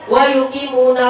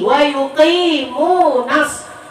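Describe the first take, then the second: First: The vowel in 'nu' is held short. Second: The vowel in 'nu' is held long. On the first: The speaker calls it wrong. "dia baca pendek" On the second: The speaker calls it right. "panjang itu matobi'i"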